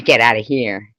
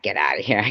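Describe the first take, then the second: First: "Get outta here" louder, falling at the end; the intended reading. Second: "get outta here" tossed off lower, rising on "here"; the unintended reading. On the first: Streamer clarifying what she meant, "Get outta here" loud and falling. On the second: Streamer correcting herself, "get outta here" low with rising end. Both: Shown as a demonstration. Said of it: "Not get outta here".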